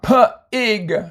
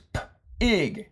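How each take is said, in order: First: An extra uh vowel follows the p sound. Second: The p goes straight into the vowel. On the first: The speaker calls it wrong. "Notice you don't say puh" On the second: The speaker calls it right. "It's p-ig"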